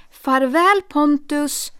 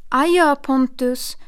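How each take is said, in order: First: Louder, higher melodramatic goodbye; hammy stage farewell. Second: Slow, louder stagey goodbye; theatrical farewell. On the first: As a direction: overact the farewell so she hears it. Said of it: "ännu värre än teater". (överdrivet teatraliskt farväl) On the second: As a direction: play the farewell for the aunt to overhear. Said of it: "det lät som teater". (teatraliskt adjö) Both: Acted.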